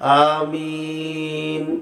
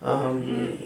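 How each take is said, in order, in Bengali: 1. শব্দটি জোরে বলা হয়েছে। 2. শব্দটি আস্তে বলা হয়েছে। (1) "এটা হলো জোরে বলা।" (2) "এটা হলো আসতে।"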